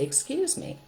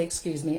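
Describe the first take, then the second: First: Polite excuse me. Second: Said in the usual way. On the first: Shown as a demonstration. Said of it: "you say". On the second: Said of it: "to teach your children to say".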